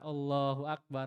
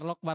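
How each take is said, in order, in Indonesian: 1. Diucapkan pelan dengan setiap suku kata jelas. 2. Diucapkan cepat dengan suku kata tertelan.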